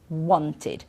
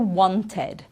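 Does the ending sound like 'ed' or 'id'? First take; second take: id; ed. First: The ending is a reduced 'id' sound. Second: The ending is a full 'ed' sound. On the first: The speaker calls it right. "then it's the id sound" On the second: The speaker calls it wrong. "so never wanted"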